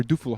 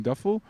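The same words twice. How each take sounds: First: Duffel said as DOO-fel. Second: Duffel said as DUH-fel; Duffel with short u. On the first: Host trying another pronunciation, "Duffel" said DOO-fel. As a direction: say "Duffel" with an OO in the first syllable. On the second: Host unsure of a town name, "Duffel" said DUH-fel. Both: Shown as a demonstration. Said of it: "how do you pronounce it?".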